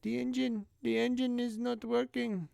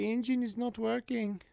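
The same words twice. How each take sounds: First: A light, high mock Indian accent. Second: Light high mock Indian accent, softly. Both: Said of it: "she sounded kinda like Indian".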